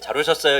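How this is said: The greeting sounds flat and indifferent.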